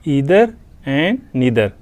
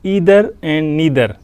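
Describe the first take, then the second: First: It is said with an American English accent. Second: It is said with an American English accent.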